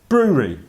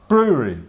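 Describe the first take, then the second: The two takes are said the same way.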